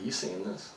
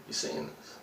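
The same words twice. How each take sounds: First: Said in the usual way. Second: You seeing this whispered, softer and lower; whispered repeat. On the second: Retold or imitated. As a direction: lean in and whisper the question again. Asks coworker again, hushed.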